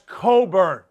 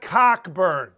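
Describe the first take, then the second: First: The name is said without any k sound. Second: The name is said with a clear k sound. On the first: The speaker calls it right. "That's Coburn" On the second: The speaker calls it wrong. "Don't say his name phonetically. That's not Cockburn"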